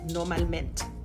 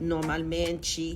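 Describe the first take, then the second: First: The word is said in a clipped, brusque way. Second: The word is said in a soft, lyrical way. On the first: This is the pronunciation used in Portugal. "what I thought was a little more brusque" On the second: This is the pronunciation used in Brazil. "the lyrical mente pronunciation"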